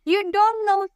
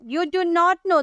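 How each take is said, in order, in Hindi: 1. "Do not" एक syllable में छोटा होकर "don't" बन जाता है। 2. "Do not" को दो पूरे शब्दों की तरह बोला जाता है।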